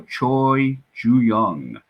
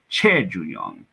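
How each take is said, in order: First: The name is said with an English-style pronunciation. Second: The name is said with a Korean pronunciation.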